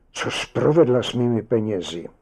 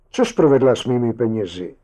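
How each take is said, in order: First: Distressed plea. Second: Fast, louder demand; angry yell. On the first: Husband kneels by motionless wife, pleading in distress. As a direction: plead with a touch of dread, stressing "provedla". Repeats demand, now frightened, kneeling. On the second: Husband confronts sleeping wife over missing money, yelling. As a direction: fire it out as a raised, rapid accusation. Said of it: "zařval". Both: A narrator's reading.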